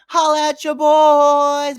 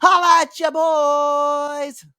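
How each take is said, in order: First: Drawn-out hype shout of the catchphrase. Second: Drawn-out hype shout of the catchphrase, slower. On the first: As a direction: stretch it out like a hype man. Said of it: "but we could also". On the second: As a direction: stretch every word, hype man style. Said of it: "I guess we could do that". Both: Shown as a demonstration.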